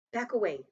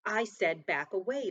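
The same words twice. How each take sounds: First: Loud, raised order; firm command. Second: Loud, slow, deliberate order; insistent command. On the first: Soldier warning someone off at gunpoint, firm command. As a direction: order them back. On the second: Soldier repeating his warning to back away, insistent command. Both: A narrator's reading.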